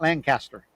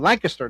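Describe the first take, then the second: First: The word is said slowly, each part drawn out. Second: The word is said quickly in one run. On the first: This is how outsiders say it. The speaker calls it wrong. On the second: This is how people from the area say it. The speaker calls it right. "All fast, simple"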